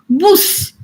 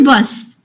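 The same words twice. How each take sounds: First: The vowel sounds like 'oo', Yorkshire style. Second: The vowel is the standard English 'uh'.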